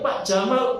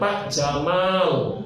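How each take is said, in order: First: The vowel after the m is short. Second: The vowel after the m is lengthened. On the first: It means camel. The speaker calls it wrong. "Pak Onta, nggak boleh" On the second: It is the proper name, not an animal. The speaker calls it right. "Dipanjangkan mimnya"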